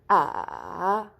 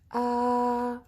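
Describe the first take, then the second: First: The pitch dips down and then rises. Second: The pitch stays level and steady. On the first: "you go from up to down, then up again" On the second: "we have to keep our voice in the same line"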